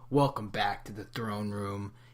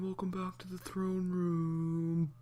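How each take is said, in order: First: It is said in his natural voice. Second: It is said in a put-on voice.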